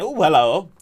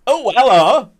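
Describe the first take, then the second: First: A light, higher imitation of James saying hello; mock greeting. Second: A much higher, louder, sing-song hello; hammed-up greeting. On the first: Streamer imitating James greeting someone, playful. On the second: Streamer hamming up James's greeting, high and sing-song. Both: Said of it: "James saying".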